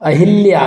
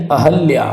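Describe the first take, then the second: First: अहिल्या said as "a-hil-ya"; wrong "hi" vowel. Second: अहल्या said as "a-hal-ya"; plain a after h in अहल्या; correct "ha" vowel. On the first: Teacher shows the mistake, अहिल्या with "hil". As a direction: put an i after h in अहिल्या. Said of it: "अहिल्या नहीं". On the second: Teacher corrects the word, अहल्या with "hal". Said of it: "क्या होगा, अहल्या". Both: Shown as a demonstration.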